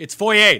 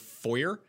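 First: Foyer as "foy-AY", much louder; emphatic correction to "foy-AY"; insisted French pronunciation. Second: Foyer said "FOY-er"; foyer with a hard final "r"; Americanized "foy-er" for foyer; American pronunciation. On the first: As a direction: hammer home "foy-ay" for foyer, higher and loud. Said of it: "that's what it fucking is". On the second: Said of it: "hear an American say the word". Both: Shown as a demonstration.

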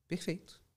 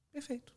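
First: Said in the usual way. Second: Perfeito jumped much higher and softer, falling at the end; high approving perfeito. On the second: Real, not acted. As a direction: lift Perfeito way up in delighted approval. Approving the client's phrasing.

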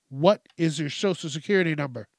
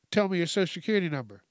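First: Mildly snippy, word-by-word question; acted insistence, more deliberately paced; snippy repeated demand. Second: Fast, hurried mock demand; acted rushed questioning; rushing. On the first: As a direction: press the question like an impatient caller. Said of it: "they start getting snippy with you". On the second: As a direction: rattle it off like an impatient caller. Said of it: "and then you're rushing me".

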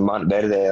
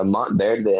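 First: Spanish pronunciation of Montverde; Spanish accent. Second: Said in the usual way. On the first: Shown as a demonstration. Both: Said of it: "gonna say it with a Spanish accent".

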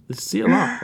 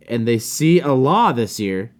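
First: High mock repeat. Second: Said in the usual way. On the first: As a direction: repeat "Allah" higher, mock-puzzled. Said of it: "I didn't know Mikey was Muslim". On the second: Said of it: "They see Allah, okay".

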